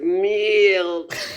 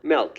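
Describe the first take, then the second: First: The vowel is close, like in 'mill'. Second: The vowel is open, like in 'mell'. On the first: The speaker calls it wrong. "You have to like press your lips together more" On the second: The speaker calls it right. "I say M E L K"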